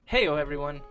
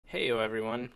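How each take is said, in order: First: The greeting sounds upbeat and livelier in energy. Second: The greeting sounds sad and low in energy. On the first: The speaker calls it right. "Let's take that again" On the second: The speaker calls it wrong. "I sound really sad"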